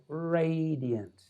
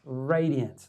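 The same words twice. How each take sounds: First: "radiant" slowly stretched on its first vowel; RADIANT drawn out. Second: Said in the usual way. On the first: Shown as a demonstration. Describing his presence to listeners, "radiant" drawn out for emphasis. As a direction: savour "radiant", stretching it long.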